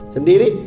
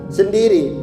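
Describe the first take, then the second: The two takes are said the same way.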